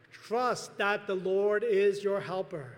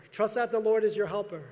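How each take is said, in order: First: "trust" drawn out, every word spaced slowly; slow emphatic heading. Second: "Lord" stressed, louder, with a falling close; louder repeat. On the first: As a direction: lay out "trust that the Lord is your helper" slowly, word by word. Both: Shown as a demonstration.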